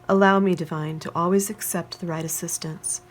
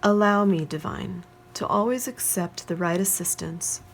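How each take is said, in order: First: It is read at a faster pace. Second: It is read at a slower pace.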